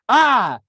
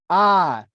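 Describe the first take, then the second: First: The sound is a full scream. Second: The sound is loud, like outdoor calling. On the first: "I screamed at the ant" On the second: "I tried using my outside voice next"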